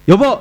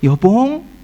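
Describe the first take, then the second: First: It is said harshly, without affection. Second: It is said cutely and affectionately.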